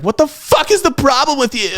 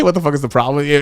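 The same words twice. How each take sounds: First: Very high-pitched mock outrage; imitated indignant outburst, pitched way up; mimicked outraged date. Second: Said in the usual way. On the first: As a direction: squeal it like an appalled date. Retold angry date after a crash.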